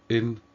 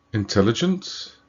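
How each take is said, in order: First: Syllable by syllable. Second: Said in the usual way. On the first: Shown as a demonstration. Teacher counting syllables for learners, syllable by syllable. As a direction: count it out: in, tel, li, gent, pausing between. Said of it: "So more than three syllables".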